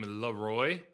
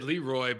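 First: The stress is on the second syllable. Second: The stress is on the first syllable. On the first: This is how the name was said once he became popular. "the emphasis came on the second syllable of the word" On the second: This is the earlier way the name was said. "you said Leroy"

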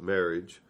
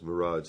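First: It sounds like the word marriage. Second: It sounds like the word mirage. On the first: "most people call it marriage" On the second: "my favorite was Mirage, like it's not really there"

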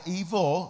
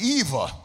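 First: It is said in a plain, ordinary speaking voice. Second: It is said in a put-on, dramatic vampire voice. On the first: The speaker calls it wrong. "Not evil" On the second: The speaker calls it right. "Say it like Vampire in Brooklyn"

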